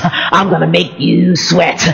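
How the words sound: It is said in a creepy, menacing way.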